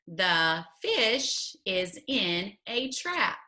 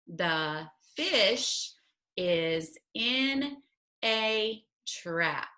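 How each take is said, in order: First: It is read at a faster pace. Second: It is read at a slower pace.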